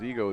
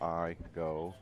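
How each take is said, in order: First: The first vowel sounds like 'ee'. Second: The first vowel sounds like 'eye'. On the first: The speaker calls it wrong. "I hope it's not Ego because Ego is E G O" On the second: The speaker calls it right. "Then you pronounce it as a long"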